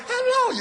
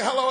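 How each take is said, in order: First: Very high, sing-song hello that falls; sweet high hello. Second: Said in the usual way. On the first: Retold or imitated. Loved one answering the phone, very high sweet hello. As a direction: swoon it up high like you're smitten. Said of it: "and they say". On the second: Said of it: "you know how you pick up the phone, you say".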